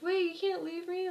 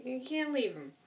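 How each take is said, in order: First: Higher, desperate plea, imitating Merle; pleading. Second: Said in the usual way. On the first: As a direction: mimic Merle begging not to be left behind. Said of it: "he's like".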